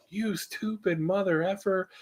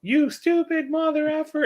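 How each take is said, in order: First: Retold road rage, pitched up and slow; mock scream. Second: Put-on tiny, very high kid voice; imitated little girl echoing an insult; parroting child. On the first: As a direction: stretch it out in a held-back mock scream. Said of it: "I screamed at the guy". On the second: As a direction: squeak it like a small child copying a parent. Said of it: "it was a parent in the back seat".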